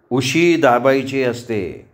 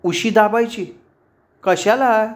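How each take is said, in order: First: Slow, drawn-out amused advice; amused neighbour. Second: High-pitched baffled questions; puzzled. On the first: Neighbour advising two flustered girls, amused. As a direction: advise slowly with a smile. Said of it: "Angad हसत म्हणाला". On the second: Roommates questioning the neighbour's advice, puzzled. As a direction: echo it back high, bewildered. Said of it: "दोघी गोंधळून पाहत राहिल्या". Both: A narrator's reading.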